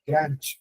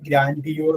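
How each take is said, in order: First: The word is said in its short standard form. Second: The word is sounded out following its spelling. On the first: "pronounce ചെയ്യുന്നത് ഗ്രാൻഡ് എന്നാണ്" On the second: "എക്സാമിന് എളുപ്പത്തിന് വേണ്ടിയിട്ട്"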